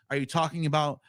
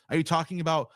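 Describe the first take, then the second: No difference in how they are said.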